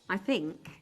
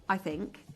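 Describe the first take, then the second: No difference in how they are said.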